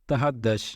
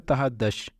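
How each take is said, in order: The two takes are said the same way.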